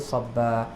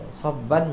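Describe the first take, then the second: First: The word ends on a plain short vowel. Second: The word ends with a nasal n sound. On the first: The reader stops on this word. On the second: The reading continues past this word.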